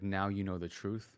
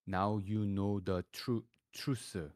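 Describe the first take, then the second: First: It is said in a plain American accent. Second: It is said in a strong Korean accent, broken into separate syllables. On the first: "like that's how you'd say it in an American accent" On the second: "if I write it down in Korean, it would sound like"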